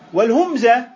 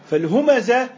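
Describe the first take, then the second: First: The second consonant is followed by no vowel. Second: The second consonant is followed by a vowel. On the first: The man is mocked by others. "بالسكون" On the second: The man mocks and backbites others. "صيغة فعلة ... اسم الفاعل"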